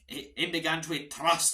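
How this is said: It is said in a Scottish accent.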